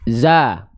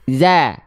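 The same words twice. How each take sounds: First: The vowel sounds fuller, lips simply open. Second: The vowel sounds thinner, lips spread smiling. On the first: "hanya membuka mulut saja" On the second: "sambil seolah tersenyum"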